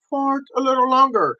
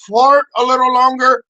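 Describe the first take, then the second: First: Said in the usual way. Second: Loud. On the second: Shown as a demonstration.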